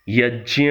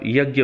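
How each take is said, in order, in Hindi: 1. यह संयुक्ताक्षर पारंपरिक संस्कृत तरीके से बोला गया है। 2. यह संयुक्ताक्षर रोज़मर्रा की हिंदी तरीके से बोला गया है। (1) "यज्ञ अर्थात" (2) "जिसे आप यज्ञ बोलते हैं"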